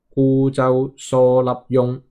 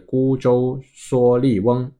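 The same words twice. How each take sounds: First: It is read with Cantonese pronunciation. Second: It is read with Mandarin pronunciation.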